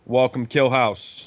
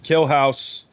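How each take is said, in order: First: Said in the usual way. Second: Killhouse in a Boston accent. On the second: Shown as a demonstration. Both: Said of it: "Gotta say it with the Boston accent".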